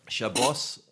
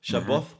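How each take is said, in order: First: The word ends with a hissing s sound. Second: The word ends with a soft th sound. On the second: This is the Yemenite pronunciation. "Shabboth would be Yemen"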